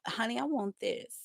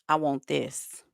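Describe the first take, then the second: First: It is said in a soft, sweet voice. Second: It is said in a firm, serious voice.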